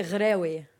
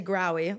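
First: "Grewi" starting on a throaty guttural G; "Grewi" with a rasped Arabic gh; native pronunciation. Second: "Grawi" with a plain hard English G; easy English-style "Grawi"; English pronunciation. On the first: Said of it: "but I say Grewi". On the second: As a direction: say "Grawi" the anglicized way, no throat sound. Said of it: "So the English way". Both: Shown as a demonstration.

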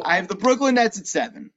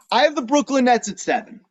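First: Measured, unbudging repeat; matter-of-fact restatement. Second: Higher-pitched, punchy declaration; bold announcement. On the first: Podcaster repeating the pick after co-host's wow, matter-of-fact. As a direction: restate the pick, more settled. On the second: Podcaster revealing a surprise ranking to co-host, boldly announced. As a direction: drop the surprise pick, pitched up. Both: Real, not acted.

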